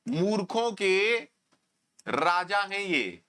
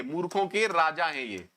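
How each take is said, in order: First: "मूर्खों के" slowed and rising, a pause, then "राजा हैं ये" slow and falling; slow emphatic pause. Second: Said in the usual way. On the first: Shown as a demonstration. Teacher mocking a student's question to the class, slow with a pause.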